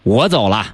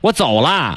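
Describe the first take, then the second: First: The stress is on 我. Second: The stress is on 走.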